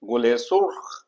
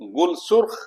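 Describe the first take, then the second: First: An 'e' vowel links the two words. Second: The words are joined with no linking vowel. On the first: The speaker calls it right. "एक रिदम पैदा होता है" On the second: The speaker calls it wrong. "ना तो वो रिदम है"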